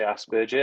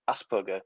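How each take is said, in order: First: The name is said with British pronunciation. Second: The name is said with German pronunciation. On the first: This is how British people say it. "I'm British and... I say Asperger" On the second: This is how the original namesake said it. "he's German, so it was like Hans Asperger"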